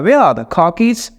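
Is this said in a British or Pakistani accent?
British. Only where, car and keys are stressed. "तो वो क्या कहता है"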